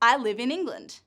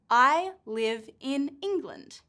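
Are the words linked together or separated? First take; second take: linked; separated. First: The v sound links into the next vowel. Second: The words are said separately, not linked. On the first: The speaker calls it right. "we link the v sound with the I sound" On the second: The speaker calls it wrong. "This is how it's written, but we don't say it like that"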